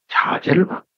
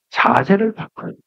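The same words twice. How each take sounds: First: 자세를 바꿔요 breathed out in a whisper; 자세를 바꿔요 whispered softly. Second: Said in the usual way. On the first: Shown as a demonstration. Repeats the phrase, second hushed.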